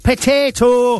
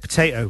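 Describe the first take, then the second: First: The word is said in an imitated regional accent. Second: The word is said in the speaker's ordinary accent. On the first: This is how someone else says it. "Mark would say" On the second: This is how the speakers themselves say it. "But we would say potato"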